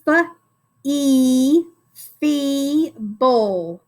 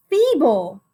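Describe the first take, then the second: First: "F-E, feeble" as separate drawn-out sounds, then two syllables; sounding out. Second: Said in the usual way. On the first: Shown as a demonstration. Teacher decodes a new word for pupils, sounding out. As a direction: stretch the sounds of "feeble" and split before the final bul. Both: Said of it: "now we can sound it out".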